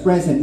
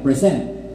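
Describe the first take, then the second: First: The stress is on the first syllable. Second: The stress is on the second syllable. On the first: Someone is here. "yung first syllable ay tumaas, yun yung may stress" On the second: It is an action of showing something. "pag nilagay natin yung second syllable yung stress"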